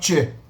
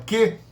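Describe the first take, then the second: First: The syllable starts with a soft ch sound. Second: The syllable starts with a hard k sound. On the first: "Você muda para uma articulação dianteira che" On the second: "pegar a velar e falar que"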